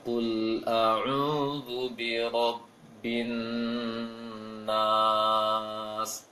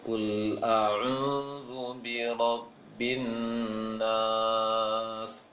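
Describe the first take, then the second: First: The mouth opens wide, vowels clearly 'a'. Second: The mouth is barely open, vowels near 'e'. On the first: The speaker calls it right. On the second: The speaker calls it wrong. "Kurang buka"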